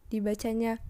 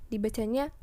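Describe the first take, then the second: Both takes have the same delivery.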